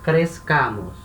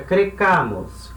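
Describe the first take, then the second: First: A z sound comes before the k sound. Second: A bare k sound comes before the ending. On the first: The speaker calls it right. "entra um Z aqui antes do C" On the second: The speaker calls it wrong. "aí fica um som esquisito"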